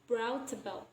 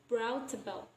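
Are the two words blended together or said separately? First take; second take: blended; blended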